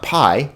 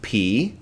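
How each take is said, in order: First: The vowel sounds like 'eye'. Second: The vowel sounds like 'ee'. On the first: The speaker calls it wrong. "notice not pi" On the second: The speaker calls it right. "We pronounce it P"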